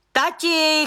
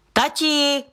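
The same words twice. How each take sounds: First: Second high shout of Dad, even higher; insistent repeated call. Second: High shout of Dad into the house; a girl yelling for her father, pitched far up; shouting indoors; calling out. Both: A narrator's reading. Daughter calls father indoors.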